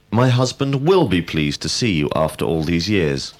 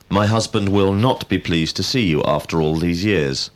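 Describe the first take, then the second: First: "will" stressed with emphasis, pitch lifted. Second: "not" stressed with emphasis. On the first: Teacher giving an example of emphatic verbs, stress on "will". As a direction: lean firmly on the word "will". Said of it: "used when we wish to be emphatic". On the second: Teacher showing emphasis in a negative sentence, stress on "not". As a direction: put the weight on "not". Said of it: "we emphasize the word not". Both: Shown as a demonstration.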